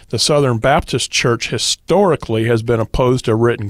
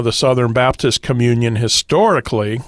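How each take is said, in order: First: Said in the usual way. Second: Historically said with weight; stress on historically. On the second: Shown as a demonstration. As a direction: lean on the word historically. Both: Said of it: "explain why I emphasize that word".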